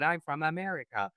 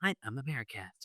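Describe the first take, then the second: First: Said in the usual way. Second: A soft, lightly put-on American accent. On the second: Shown as a demonstration. Host imitates an American accent, softer and lightly done. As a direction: murmur it in a mock American accent. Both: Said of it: "This is my A I voice from America".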